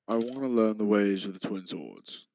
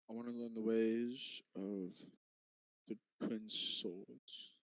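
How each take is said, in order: First: It is said loudly and clearly. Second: It is mumbled quietly in a character voice.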